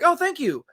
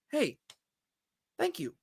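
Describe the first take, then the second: First: It is said quickly and casually. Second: It is said sincerely after a breath.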